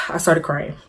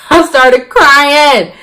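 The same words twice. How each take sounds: First: Said in the usual way. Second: Loud, high, very drawn-out wail of words; big slow mock-dramatic cry; hammed-up outburst. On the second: Real, not acted. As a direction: stretch it out loudly for comic drama. Hammed-up repeat of the admission.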